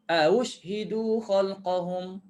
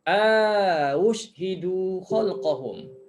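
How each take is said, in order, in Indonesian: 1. Vokal pertama pendek sebelum hamzah kedua. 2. Vokal pertama dipanjangkan sebelum hamzah kedua. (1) "Dia juga boleh baca tanpa idkhal alif" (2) "dia panjangkan a yang pertama"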